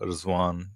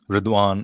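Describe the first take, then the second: First: The consonant before the w sounds like z. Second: The consonant before the w sounds like d. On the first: "D is pronounced as uh, Z, right? So Rizwan, you can say" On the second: "but Ridwan"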